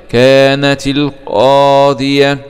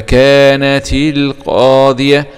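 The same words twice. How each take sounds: First: كانت القاضية slow, the تاء of كانت joined with kasra; tajweed demo. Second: كانت القاضية with the تاء given a kasra, slow; tajweed demo. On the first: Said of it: "هنا التقى ساكنة". (كانتِ القاضية بالكسر للتخلص من الساكنين) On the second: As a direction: say كانتِ القاضية joining with kasra. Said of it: "بالكسر مثل هذه التاء". (كانتِ القاضية بالكسر) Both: Shown as a demonstration.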